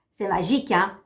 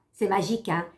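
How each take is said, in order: Both takes have the same delivery.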